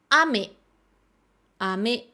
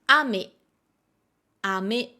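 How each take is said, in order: Both takes have the same delivery.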